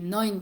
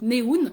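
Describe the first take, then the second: First: The word is pronounced the German way. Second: The word is pronounced the Japanese way. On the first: The speaker calls it right. "qui veut dire neuf en allemand" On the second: The speaker calls it wrong. "j'ai prononcé ça à la japonaise"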